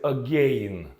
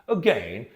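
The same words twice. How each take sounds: First: The word is said in a British-sounding way. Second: The word is said in an American-sounding way. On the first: The speaker calls it wrong. "they pronounce this word as again. No" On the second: The speaker calls it right. "It's going to be uh, again"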